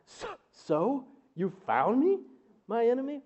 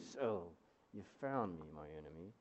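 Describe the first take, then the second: First: It is said in shock. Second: It is said in frustration.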